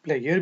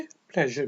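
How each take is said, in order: First: प्लेयर said as "player"; British pleasure. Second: प्लेजर with a clear zh sound; American pleasure. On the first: Teacher shows the British प्लेयर, said "player". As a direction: soften the zh to a y: प्लेयर. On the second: Teacher shows the American प्लेजर with a zh. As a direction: say प्लेजर as "pleh-zher". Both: Shown as a demonstration. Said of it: "कुछ लोग इसको प्लेयर भी पढ़ते हैं".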